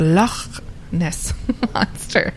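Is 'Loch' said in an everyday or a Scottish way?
Scottish. Loch is said imitating a Scottish accent.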